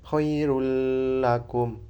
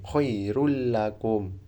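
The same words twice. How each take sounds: First: The merged sound carries a lingering nasal hum. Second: The merged sound is direct, with no nasal hum. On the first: The speaker calls it wrong. "Jadi gak usah khairul lakum" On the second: The speaker calls it right. "Langsung memasukkan tapi tidak dengung"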